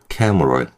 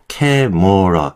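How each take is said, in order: First: The middle vowel is almost silent. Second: The middle vowel is clearly pronounced. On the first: The speaker calls it right. "M과 R을 붙여서" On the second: The speaker calls it wrong. "억지로 으 넣지 마시고"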